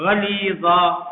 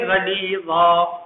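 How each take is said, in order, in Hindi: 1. शब्द लंबी a की आवाज़ से खत्म होता है। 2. शब्द लंबी a की आवाज़ से खत्म होता है।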